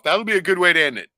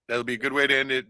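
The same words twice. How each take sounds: First: Louder, pumped-up sign-off; big announcing voice. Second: Said in the usual way. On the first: Shown as a demonstration. To his co-host, announcing the closing clip with hype. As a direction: hype the ending up to the host's friend. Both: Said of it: "bring it down".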